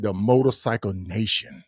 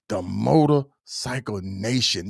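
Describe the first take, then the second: First: Said in the usual way. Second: "The motorcycle nation" drawn out slowly, every word weighted; slow emphatic phrase. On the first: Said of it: "She said". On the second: Shown as a demonstration. Host savoring the guest's phrase for viewers, slow and weighty. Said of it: "repeated slowly for emphasis".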